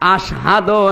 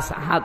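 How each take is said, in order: First: The word is pronounced clearly. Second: The word is pronounced indistinctly. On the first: This is the proper form of the word. The speaker calls it right. "আশহাদু না বলে" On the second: The speaker could not say the word properly. The speaker calls it wrong. "কথাও স্পষ্ট ভাবে বলতে পারতেন না, ... আসহাদু বের হয়ে যেত"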